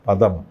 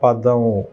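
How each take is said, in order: First: The word ends cleanly on its final consonant. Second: The word ends with an extra drawn-out vowel. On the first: The speaker calls it right. "പദം എന്ന് തന്നെ പറയണം" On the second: The speaker calls it wrong. "പദമോ എന്ന് പറയാൻ പാടില്ല"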